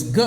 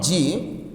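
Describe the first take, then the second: First: "G" said as a short guh; hard g sound. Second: "G" said as jee; letter name G. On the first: Teacher correcting the letter name, G as guh. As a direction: sound out "G" hard, as in gate, not jee. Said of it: "It's G". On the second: Teacher showing what the sound is not, G as jee. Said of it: "It's not G". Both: Shown as a demonstration.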